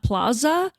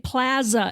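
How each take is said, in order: First: The A vowel is said the East Coast way. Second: The A vowel is said the Midwest way. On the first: This is how people talk where the speaker grew up. The speaker calls it right. "and not plaza" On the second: The speaker has adopted the local way of talking. The speaker calls it wrong. "if I ever say plaza"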